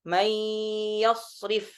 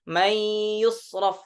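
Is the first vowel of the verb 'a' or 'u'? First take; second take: a; u. First: The verb has a then i vowels. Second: The verb has u then a vowels. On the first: "Dengan memfathahkan ya dan mengkasrahkan huruf ra" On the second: "kalau di riwayah Hafs"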